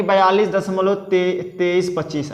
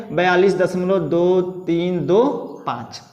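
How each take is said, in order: First: "तेईस पच्चीस" read as two whole numbers after the point; wrong reading as pairs. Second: "दो तीन दो पाँच" each digit read separately and slowly after दशमलव. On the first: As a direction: say "बयालीस दशमलव तेईस पच्चीस" grouping the digits into twenty-three and twenty-five. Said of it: "अब ऐसे नहीं पढ़ेंगे". ("तेईस पच्चीस" को जोड़कर संख्या की तरह पढ़ना) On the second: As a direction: spell out "दो तीन दो पाँच" one digit at a time, slow. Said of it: "इसको कैसे पढ़ेंगे?". ("दो तीन दो पाँच" एक-एक अंक अलग-अलग धीरे पढ़ना) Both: Shown as a demonstration.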